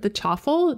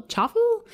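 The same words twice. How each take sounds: First: "chaffle" tried as CHAF-ful, rhyming with waffle, falling tune; trying the word. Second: "chaffle?" asked with the pitch leaping high at the end; "chaffle" tried again, unsure, rising sharply; unsure of the word. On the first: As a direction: say "chaffle" with a short "a", settling down at the end. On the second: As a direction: say "chaffle" as a puzzled, squeaky question. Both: Shown as a demonstration. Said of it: "I never know how to say this word".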